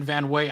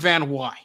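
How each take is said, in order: First: The last syllable rhymes with 'say'. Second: The last syllable rhymes with 'sigh'. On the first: The speaker calls it wrong. "a lot of people have been saying Van Way" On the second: The speaker calls it right. "It's [name]"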